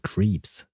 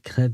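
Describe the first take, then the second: First: The vowel is a long 'ee' sound. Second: The vowel is a short 'eh' sound. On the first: The speaker calls it wrong. "crêpe becoming creeps" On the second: The speaker calls it right. "the sound eh"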